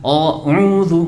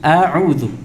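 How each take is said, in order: First: The first vowel is thick and rounded. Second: The first vowel is thin and open. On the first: The speaker calls it wrong. "Bukan a'udzu, enggak" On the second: The speaker calls it right. "Tipiskanlah kata penulis hamzah"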